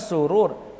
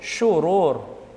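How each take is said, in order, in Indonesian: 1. Kata ini diawali dengan bunyi 's' biasa. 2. Kata ini diawali dengan bunyi 'sh'. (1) "Salah, bukan surur" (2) "Yang betul syururi bisyin, shin yang besar"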